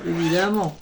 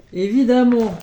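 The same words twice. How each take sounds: First: Said in the usual way. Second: Évidemment said louder and more firmly, a falling tune at the end; emphatic évidemment. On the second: Shown as a demonstration. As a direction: hit Évidemment with conviction.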